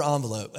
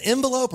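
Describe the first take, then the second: First: "envelope" starting with ON, French-style first vowel; ON-velope pronunciation. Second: "envelope" starting with EN, as in "end"; EN-velope pronunciation. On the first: Pastor wondering how to say "envelope", first syllable ON. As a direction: say "envelope" as ON-vuh-lope. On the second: Pastor wondering how to say "envelope", first syllable EN. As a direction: say "envelope" as EN-vuh-lope. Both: Shown as a demonstration. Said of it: "is it envelope or envelope?".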